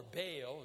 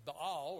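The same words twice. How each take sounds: First: Baal said as "Bay-al", American style; "Baal" two syllables, "Bay-al" with a long a sound; American pronunciation. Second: Baal said as "Bahl" with a long open a; "Baal" tek heceli, "Bahl" gibi uzun açık a ile; other pronunciation. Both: Shown as a demonstration. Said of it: "as we say in America".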